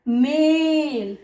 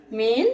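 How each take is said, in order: First: मेल with the vowel stretched very long and slow; long drawn vowel. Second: Said in the usual way. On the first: Shown as a demonstration. Teacher to students, stretching the ए in मेल slowly. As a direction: pull out the ए in मेल. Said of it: "वो थोड़ा ज़्यादा लंबा खिंचता है।". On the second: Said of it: "मेल मतलब नर".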